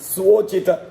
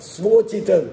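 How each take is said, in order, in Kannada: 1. ಇದು 's' ನಂತರ 'v' ಇರುವಂತೆ ಶುರುವಾಗುತ್ತದೆ. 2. ಇದು 's' ನಂತರ 'v' ಇರುವಂತೆ ಶುರುವಾಗುತ್ತದೆ.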